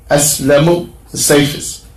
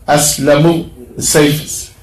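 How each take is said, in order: Both takes have the same delivery.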